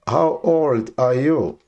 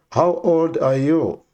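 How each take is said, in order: Both takes have the same delivery.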